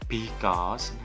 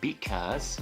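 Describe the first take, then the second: First: The B sound is heavy and forceful. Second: The B sound is soft and light. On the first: The speaker calls it wrong. "bukan because" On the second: The speaker calls it right. "Because seperti itu ya"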